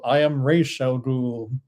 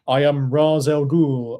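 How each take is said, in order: First: The name begins with a 'Raish' sound. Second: The name begins with a 'Roz' sound.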